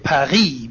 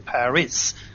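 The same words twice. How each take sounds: First: Paris is said in a non-American way. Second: Paris is said in the American way. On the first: The speaker calls it right. "Like we say Paris" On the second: The speaker calls it wrong. "we don't say Paris"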